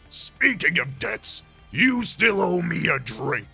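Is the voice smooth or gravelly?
smooth. The voice has less gravel in it.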